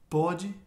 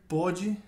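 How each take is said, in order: Both takes have the same delivery.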